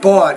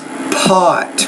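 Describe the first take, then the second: First: The first sound is soft, with little air. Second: The first sound bursts out with strong air. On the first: The speaker calls it wrong. "It's not bought" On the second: The speaker calls it right. "pronounce that with more air"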